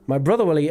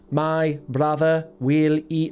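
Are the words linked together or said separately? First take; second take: linked; separate. First: The words flow together in connected speech. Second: Each word is said separately and distinctly. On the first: The speaker calls it right. "natural, easy flowing, connected speech pronunciation" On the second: The speaker calls it wrong. "not word for word like"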